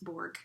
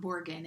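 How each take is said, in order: First: The name is said with one syllable. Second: The name is said with two syllables. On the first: The speaker calls it right. "it's Borg" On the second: The speaker calls it wrong. "it's not Borgen"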